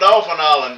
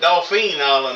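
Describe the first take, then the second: First: The first word sounds like 'dolphin'. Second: The first word sounds like 'doe-feen'. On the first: "my redneck ways won't let me say it that way" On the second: "I guess how you're supposed to pronounce it"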